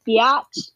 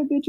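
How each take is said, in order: First: "biatch" stretched into two syllables, bee-atch; mock with "biatch", opening into an "atch"; mocking mispronunciation. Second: Said in the usual way. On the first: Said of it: "saying that to make fun of me". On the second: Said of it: "he responded to my bitch with".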